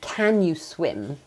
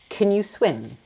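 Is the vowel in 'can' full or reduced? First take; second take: full; reduced. First: The vowel in can is full and strong. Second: The vowel in can is weak and reduced. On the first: The speaker calls it wrong. "instead of saying" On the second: The speaker calls it right. "The most natural way of asking this question would be"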